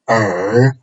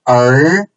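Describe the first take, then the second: First: It is said with the third tone. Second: It is said with the second tone. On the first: "third tone" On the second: "second tone"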